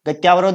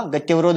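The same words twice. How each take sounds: First: गत्यावरोध said with a long आ after त्य, ग-त्या-व-रोध; wrong long vowel. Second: गत्यवरोध said with a short अ after त्य, ग-त्य-व-रोध; correct short vowel. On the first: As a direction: stretch the आ in गत्यावरोध as the mistaken form. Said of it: "नहीं होगा". (गत्यावरोध में त्य के बाद लंबा आ, गलत उच्चारण) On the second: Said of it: "गत्यवरोध होगा". (गत्यवरोध में त्य के बाद छोटा अ, शुद्ध उच्चारण) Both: Shown as a demonstration.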